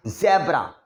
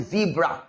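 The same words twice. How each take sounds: First: ज़ेब्रा with a short e, zebra; common pronunciation. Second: ज़ीब्रा with a long ee, zeebra; correct pronunciation. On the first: Teacher showing what students usually say. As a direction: say ज़ेब्रा the everyday Indian way. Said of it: "हम लोग ज़ेब्रा बोलते हैं". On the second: Teacher contrasting the right and common forms. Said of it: "ज़ीब्रा लिखवाया". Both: Shown as a demonstration.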